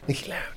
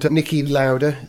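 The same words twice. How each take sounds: First: The name is said more quietly. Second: The name is said at normal loudness.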